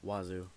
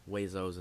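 First: The word ends in a plain 'oo' sound. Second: The word ends in an 'ohs' sound. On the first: This is the speaker's own usual way. "as I say it" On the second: This is how someone else says it. "as Xander pronounces it"

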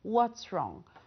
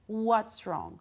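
No difference in how they are said.

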